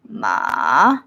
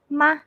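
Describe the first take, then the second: First: The pitch sits very low. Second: The syllable is very short and light. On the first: "very low" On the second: "Very short and very light"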